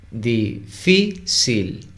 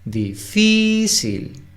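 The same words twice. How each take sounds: First: DI-FÍ-CIL, slowly split into three syllables. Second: "Difícil" slowly, FÍ held long and much higher; stress on FÍ. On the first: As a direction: say "Difícil" slowly, pausing between syllables. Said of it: "Difícil tiene tres, eh, sílabas". ("Difícil" separado en tres sílabas, lento) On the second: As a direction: stretch and lift the FÍ in "Difícil". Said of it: "La sílaba tónica es fi". ("Difícil" con FÍ alargada y aguda) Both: Shown as a demonstration.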